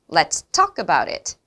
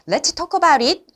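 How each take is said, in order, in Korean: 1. talk에 강세가 오고, 나머지는 약해요. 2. 모든 단어가 거의 같은 강세를 받아요. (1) "talk, 이야기하자라는 부분을 크게 이야기할 수밖에 없는 거예요" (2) "이렇게들 많이 이야기를 하십니다"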